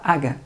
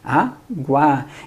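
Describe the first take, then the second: First: No w sound is heard after the G. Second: A w sound is heard after the G. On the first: The speaker calls it wrong. "A gente não fala aga" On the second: The speaker calls it right. "a gente fala o quê? Água"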